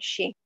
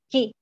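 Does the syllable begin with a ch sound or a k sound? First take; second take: ch sound; k sound. First: The syllable begins with a ch sound. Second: The syllable begins with a hard k sound. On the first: The speaker calls it wrong. "No lo vamos a leer como chi, eso sería incorrecto" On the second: The speaker calls it right. "Esto recuerden que se pronuncia como ki"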